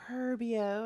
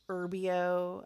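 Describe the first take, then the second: First: The word begins with an audible H sound. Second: The word begins without an H sound.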